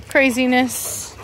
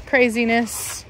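The two takes are said the same way.

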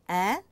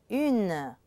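First: "Un" as a nasal vowel, no N sounded; masculine UN. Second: "une" with French u and a sounded N; feminine UNE. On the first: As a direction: say "Un" with the vowel through the nose. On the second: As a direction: sound the N clearly at the end of "une". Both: Shown as a demonstration. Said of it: "only this time we have une for the feminine".

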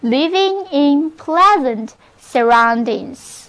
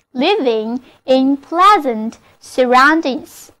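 First: Model phrase reading. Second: Repeated model reading. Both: Shown as a demonstration. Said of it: "那么就可以说成".

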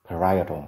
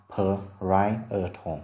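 First: Said in the usual way. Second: Parietal slowly, split into separate syllables; slow, segmented teaching demo of "parietal"; syllable-by-syllable pronunciation. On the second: Shown as a demonstration. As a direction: sound out "parietal" piece by piece. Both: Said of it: "Từ này được phát âm là".

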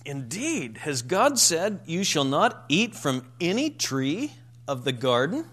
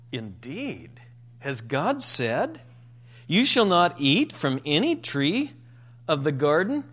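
First: Mock disbelief, rising at the end; incredulous serpent. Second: A sceptical, questioning serpent voice with rising ends; incredulous tone. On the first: Preacher voicing Satan questioning Eve, incredulous. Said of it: "when Satan comes along, he says". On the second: Retold or imitated. Preacher voicing the serpent to Eve, incredulous. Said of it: "in an incredulous tone".

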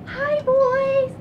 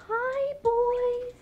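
First: High, loud squealed greeting; big high-pitched hello; usual bird greeting. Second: High, gentle drawn-out coo; soft-edged, high-pitched hello; gentle bird greeting. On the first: Shown as a demonstration. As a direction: call out high and loud to pets. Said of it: "I need to get my voice right". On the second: Real, not acted. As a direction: greet pets high without raising the volume. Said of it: "real soft and real gentle".

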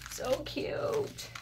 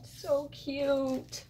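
First: Breathless high whisper "So cute". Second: Excited squeal. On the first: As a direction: whisper it in delight. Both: Real, not acted. Delighted by craft gifts.

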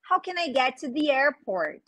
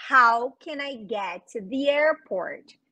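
First: Said in the usual way. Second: Same question again but slow and careful; slow it down for the class to copy; slower repeat. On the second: Shown as a demonstration. Teacher repeats slowly for students. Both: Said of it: "eu posso perguntar".

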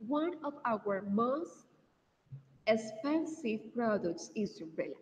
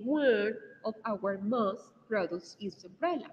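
First: "One of our most expensive products is umbrella" drawn out word by word, with pauses; careful teacher correction; slower corrected reading. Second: Slow model sentence. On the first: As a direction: repeat it slower, putting in "expensive". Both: Shown as a demonstration. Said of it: "we say".

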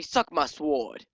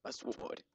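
First: Said in the usual way. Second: Hushed, whispery fancy voice; mock-fancy, softly breathed words. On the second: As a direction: put on a fancy voice, very soft. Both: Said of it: "I'm gonna say it in a fancy voice".

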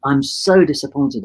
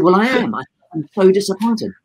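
First: Slow, drawn-out mild disappointment; retold disappointment. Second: Higher, insistent mock disappointment; retold disappointment. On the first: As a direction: stretch out the letdown gently. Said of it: "And I said". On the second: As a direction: pitch it up and press the point. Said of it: "I said".

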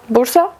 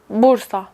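First: Bursa with rising question tune. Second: Said in the usual way. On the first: Shown as a demonstration. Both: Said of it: "bu sorunun cevabını biliyorum".

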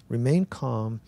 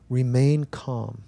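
No difference in how they are said.

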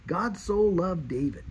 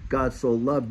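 First: "God so loved David", slower, with weight on the name "David"; "God so loved David", drawn out, leaning hard on "David"; "David" set apart with slow, personal emphasis; stress on David. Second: Said in the usual way. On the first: Shown as a demonstration. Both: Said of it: "you put your name in there".

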